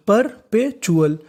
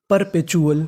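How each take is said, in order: First: perpetual drawn out slowly, each syllable par-pe-chu-al spaced. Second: Said in the usual way. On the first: Shown as a demonstration. Teacher spelling out perpetual slowly for students. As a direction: stretch perpetual out slowly for the class. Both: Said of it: "तो meaning बनी".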